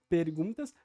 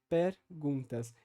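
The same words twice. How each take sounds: First: The first-syllable vowel is closed, not lowered. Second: The first-syllable vowel is lowered and more open. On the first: "ao invés de dizer" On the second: "vai levar uma tendência ao baixamento da vogal"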